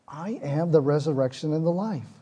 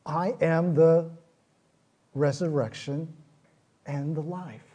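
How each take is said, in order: First: Said in the usual way. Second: I am the resurrection, slow and weighty; slow solemn quote. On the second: Retold or imitated. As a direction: lay out each word slowly. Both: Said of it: "this is what he says".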